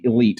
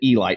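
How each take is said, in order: First: The name sounds like 'ih leet'. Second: The name sounds like 'ee light'. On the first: The speaker calls it wrong. "not the Elite. Everybody calls it that" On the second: The speaker calls it right. "It's called the E Light"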